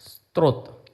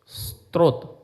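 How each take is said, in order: The two takes are said the same way.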